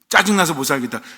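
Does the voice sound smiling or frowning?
frowning. It is said with a frowning, annoyed voice.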